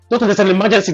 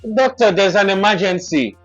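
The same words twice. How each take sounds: First: The line is said quickly, with urgency. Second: The line is said calmly, without urgency. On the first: The speaker calls it right. "you'll be like" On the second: The speaker calls it wrong. "she was like"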